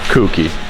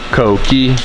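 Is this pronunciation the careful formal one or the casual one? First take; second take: casual; formal. First: It is said the casual, familiar way. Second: It is said the careful, formal way. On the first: This is what people commonly say anyway. "So you just say you just say Kuki" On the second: This is the proper name of the model. "the correct pronunciation of it is Koki"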